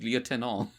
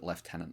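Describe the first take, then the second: First: The first syllable sounds like lieu, with no f. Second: The first syllable sounds like left, with f. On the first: This is the French way of saying it. "the French thing is just it's the tenant in in view" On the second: This is the British way of saying it. "I don't get why Britain calls it lieutenant"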